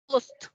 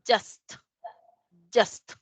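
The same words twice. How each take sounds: First: "just" as hoost, with a Spanish jota; Spanish reading. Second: "just" with a j sound and short uh; English pronunciation. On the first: Teacher showing how Spanish readers would say it, "just" as hoost. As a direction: read "just" by Spanish spelling rules. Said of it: "posiblemente lo leeríamos así". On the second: Teacher modelling the English word, "just" as juhst. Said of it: "pero en inglés es". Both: Shown as a demonstration.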